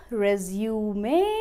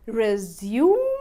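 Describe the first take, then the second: First: "resume" as re-zyoo-may; noun RESUME. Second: "Resume" as re-zyoom, silent final e; verb RESUME. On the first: Teacher contrasting two words, "resume" as re-zyoo-may. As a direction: sound the final e of "resume" as may, rising. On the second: Teacher contrasting two words, "Resume" as re-zyoom. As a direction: end "Resume" on m, rising. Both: Shown as a demonstration. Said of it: "resume और resume दोनों ही सही".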